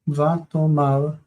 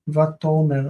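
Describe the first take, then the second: First: The final syllable has an 'ah' vowel. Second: The final syllable has an 'eh' vowel. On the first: The sentence pauses here before the quoted words. "Vatomar would be uh, like pausing before the words are spoken" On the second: The sentence continues straight on. "vatomer would be continuing on"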